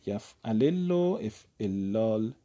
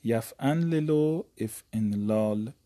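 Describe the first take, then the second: First: یفعلل said yafalel with no n sound; افعلال said efellal, lam doubled and drawn out; pattern with doubled lam. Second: یفعلل said yafanlelo with an n sound, slow; افعلال said efenlal, nun kept, drawn out; pattern with nun. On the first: Teacher reciting the if'illal pattern slowly to students. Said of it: "باب دوم باب افعلال هست". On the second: Teacher reciting the ifanlal pattern slowly to students. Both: Shown as a demonstration.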